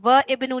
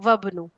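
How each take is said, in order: First: The i of ibnu is sounded after wa. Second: The i is dropped, joining wa to bnu. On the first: The speaker calls it wrong. "अब व इब्नु नहीं पढ़ा हमने" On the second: The speaker calls it right. "Direct अगले पे अलिफ लिखा रह गया"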